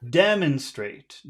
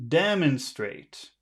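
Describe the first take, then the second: The two takes are said the same way.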